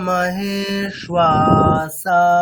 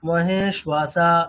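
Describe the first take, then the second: First: The long syllables are drawn out smoothly. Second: The syllables are short and split apart. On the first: The speaker calls it right. "তিনটেকেই আমাদের একটু টানতে হবে" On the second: The speaker calls it wrong. "শ্বাসা এখানে টানছেন না, ওটা মহে শ্বাসা এরকম বলছেন"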